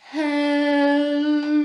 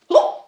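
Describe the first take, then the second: First: It is said very slowly. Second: It is said very fast.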